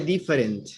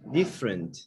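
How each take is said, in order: First: All three syllables are pronounced, including the middle vowel. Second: The middle vowel is dropped, leaving two syllables. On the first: The speaker calls it wrong. "You don't say different" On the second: The speaker calls it right. "the vowels you don't pronounce"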